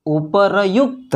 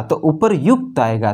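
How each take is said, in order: First: उपरयुक्त sounded out slowly as u-pa-ra-yukt; slow spelled-out उपरयुक्त; syllable by syllable. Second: Said in the usual way. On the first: Shown as a demonstration. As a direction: stretch उपरयुक्त into separate syllables, r before y. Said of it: "तो उपरयुक्त क्या पढ़ेंगे?". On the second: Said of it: "ऐसा".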